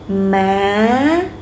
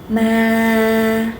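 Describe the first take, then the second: First: The pitch goes up toward the end. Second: The pitch stays level throughout. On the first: "Now rising" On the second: "Keep it flat"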